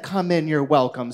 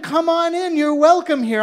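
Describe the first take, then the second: First: Flat, lower, pointed echo of the host's welcome; dry mock quote. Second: High, loud, syrupy invitation; gushing welcome. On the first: Herschel mimicking the host's welcome, flat and pointed. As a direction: throw his own words back at him. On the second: Acted. Party host gushing at the dressed-up Herschel. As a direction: lay the flattery on thick.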